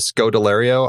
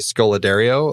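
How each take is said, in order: First: The consonant after 'Sco' is a D sound. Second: The consonant after 'Sco' is an L sound. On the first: The speaker calls it right. "I just never can say her name right" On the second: The speaker calls it wrong. "I always say Scoladario. Like I just reverse it"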